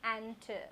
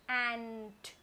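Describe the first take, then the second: First: An extra uh sound follows the final t. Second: It ends crisply on the t sound. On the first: The speaker calls it wrong. "children may add up that uh in the end" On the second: The speaker calls it right. "I clearly hear the sound the letter T is making T"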